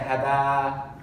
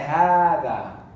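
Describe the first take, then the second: First: The first vowel is short. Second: The first vowel is long. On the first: The speaker calls it wrong. "We don't say هذا" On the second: The speaker calls it right. "we say هذا"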